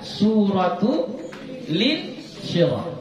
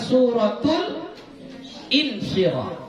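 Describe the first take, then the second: First: The L carries an i vowel into Insyirah. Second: The L closes Suratul before a separate Insyirah. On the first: The speaker calls it right. "Ya, Suratul Insyirah" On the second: The speaker calls it wrong. "Jadi bukan Suratul Insyirah"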